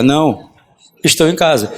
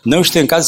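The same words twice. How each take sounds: First: There is a pause after não. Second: It is said without a pause after não.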